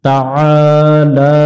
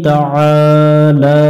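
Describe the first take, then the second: Both takes have the same delivery.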